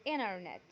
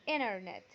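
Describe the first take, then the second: The two takes are said the same way.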